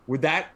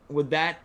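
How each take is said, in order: Both takes have the same delivery.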